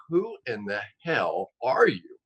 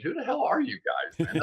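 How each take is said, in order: First: Slow, drawn-out astonishment; amazed demand. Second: High-pitched mock incredulity; quick, puzzled challenge with a jump in pitch; incredulous demand. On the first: Retold or imitated. Guest retelling his question to the expert caller, slow amazement. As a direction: space out each word in mock disbelief. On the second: Guest retelling his message to unknown analysts, incredulous demand.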